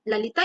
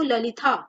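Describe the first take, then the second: First: ललिता as "la-li-taa"; ललिता ending in plain ता; unaspirated t reading. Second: ललिता as "la-li-tha"; ललिता ending in aspirated था; aspirated th reading. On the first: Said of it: "उन लोग क्या पढ़ते हैं". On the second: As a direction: say ललिता with a breath after the t. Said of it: "T H का इस्तेमाल हम था के लिए". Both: Shown as a demonstration.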